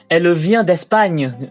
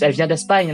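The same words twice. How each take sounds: First: Every syllable is pronounced fully and separately. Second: Some syllables are dropped, as in casual speech. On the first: This is a classical, stage-style pronunciation. The speaker calls it wrong. "en gardant toutes les syllabes" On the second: This is how people say it in everyday life. The speaker calls it right. "dans la vraie vie, on dirait plus"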